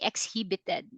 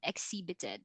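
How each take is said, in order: First: The h sound is pronounced in the middle. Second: The h sound is silent in the middle. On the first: The speaker calls it wrong. "We don't say exhibited" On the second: The speaker calls it right. "that is silent H"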